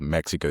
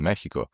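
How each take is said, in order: First: The x is said as a ks sound. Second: The x is said as an h sound. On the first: "like with Mexico" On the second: "that huh pronunciation for the X, ... it's actually Mexico"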